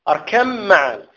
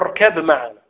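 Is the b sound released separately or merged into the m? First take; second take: merged; released. First: The b is merged into the following m. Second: The b is released with a bounce before m. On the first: The speaker calls it right. "قل أركم" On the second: The speaker calls it wrong. "لا تقلقل الباء، لا تقول أركب معنا"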